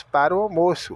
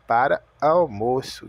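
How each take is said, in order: First: Said in the usual way. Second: "para almoço" with no "o" between the words; article dropped. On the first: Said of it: "Nós falamos para o almoço". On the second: Shown as a demonstration. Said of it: "O americano fala para almoço".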